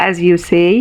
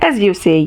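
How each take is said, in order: First: YOU gets the weight; stress on YOU. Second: AS hit firmly, pointed correction; stress on AS, correcting. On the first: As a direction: lean on you in as you say. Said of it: "correcting him". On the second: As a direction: lean on as in As you say. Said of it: "correcting him and quickly putting something extra". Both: Acted.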